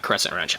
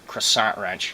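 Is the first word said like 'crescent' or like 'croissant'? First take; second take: crescent; croissant. First: The first word sounds like the ordinary 'crescent'. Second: The first word sounds like the pastry 'croissant'. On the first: The speaker calls it right. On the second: The speaker calls it wrong.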